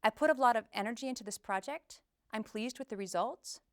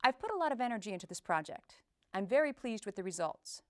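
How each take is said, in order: First: Uptalk, "project" and "results" lifting like questions; upward inflection. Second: Confident statements stepping down to "project" and "results"; start high, end low. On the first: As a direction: start low and end high on "project" and "results". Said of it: "start the sentence low and end in a high pitch". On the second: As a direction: open high and let "project" and "results" fall. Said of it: "Start high and end low". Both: Shown as a demonstration.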